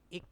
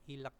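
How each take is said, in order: First: No L sound is heard before the k. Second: An L sound is heard before the k. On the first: The speaker calls it right. "tapi ik ya" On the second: The speaker calls it wrong. "bukan ilek"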